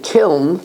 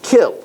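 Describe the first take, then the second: First: "kiln" with the final N sounded. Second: "kill" for kiln, ending on the L; kiln, silent N. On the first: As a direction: say "kiln", closing on the nasal after the L. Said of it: "I always pronounced it". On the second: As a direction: say "kill", dropping kiln's final N. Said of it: "it's pronounced kill". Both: Shown as a demonstration.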